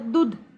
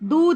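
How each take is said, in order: First: The vowel is said short. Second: The vowel is said long. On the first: The speaker calls it wrong. "छोटे ऊ की मात्रा लगा देते हैं ... तो ये गलत होगा" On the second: The speaker calls it right. "दूध हमारा सही होगा"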